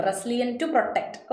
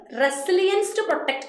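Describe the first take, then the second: First: "resilient" said slowly as the wrong adjective form; wrong form read. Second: "resilience" with a clear final s sound, the noun; corrected form. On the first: Teacher showing students the wrong word "resilient", slowly. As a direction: drag out "resilient to protect" as the mistake. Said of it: "resilience to protect എന്നാണ് വരേണ്ടത്". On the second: Teacher giving students the corrected "resilience". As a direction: stress the correction "resilience to protect". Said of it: "അല്ലാതെ റെസിലിയന്റ് എന്നല്ല". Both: Shown as a demonstration.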